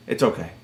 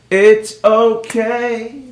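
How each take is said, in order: First: Low, soft aside; hushed and falling away; quiet resignation. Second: Very slow, rising singsong; long, lilting, extra slow; drawn-out repeat. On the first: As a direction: say it under your breath, low. Muttered resignation, then drawn-out repeat. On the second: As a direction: stretch each word right out, lifting at the end. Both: Real, not acted.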